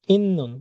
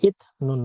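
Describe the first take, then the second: First: "ইন্নুন" with a long double n, high then falling; nasal assimilation. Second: "ইথ নুন" with a t stop before n; unchanged pronunciation. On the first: Teacher answering her question, nasal assimilation. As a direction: hold the n in "ইন্নুন", drop the pitch after. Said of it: "এটার উচ্চারণ হবে". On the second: Teacher showing learners what not to say, unchanged pronunciation. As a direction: break "ইথ নুন" at the t. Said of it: "ইথ নুন না". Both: Shown as a demonstration.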